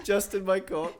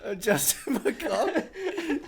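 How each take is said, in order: First: Said in the usual way. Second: Slow laughing. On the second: Real, not acted. Slow drawn name through laughter.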